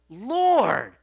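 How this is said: It is said as a forceful exclamation.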